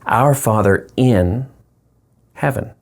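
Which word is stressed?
in. The stress falls on the word in.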